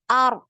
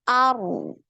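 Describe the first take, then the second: First: The r sound is cut off abruptly. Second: The r sound keeps flowing out. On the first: "tapi direm" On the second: "kemudian baru dialirkan suaranya"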